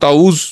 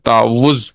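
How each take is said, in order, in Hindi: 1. w की आवाज़ एक है, खींची नहीं जाती। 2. w की आवाज़ दोहरी है और खींची जाती है। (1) "इसको ताउज पढ़ते हैं हम आमतौर पे, लेकिन ये गलत है" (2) "वाव के ऊपर शद है, जिसकी वजह से इसको तावुज पढ़ना चाहिए"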